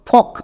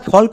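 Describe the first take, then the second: First: The word is said with a silent L. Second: The word is said with an audible L. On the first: The speaker calls it right. "তাহলে এই ওয়ার্ডের উচ্চারণ কি দাঁড়ালো?" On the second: The speaker calls it wrong. "একে আমরা ফল্ক উচ্চারণ করব না।"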